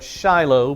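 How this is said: It is said with a Southern American pronunciation. "A good Southern American would call that Shiloh"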